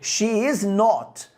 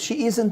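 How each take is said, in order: First: The words are said separately with emphasis. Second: The words are contracted without extra emphasis. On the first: The denial is made more emphatic. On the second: It is a plain, neutral denial.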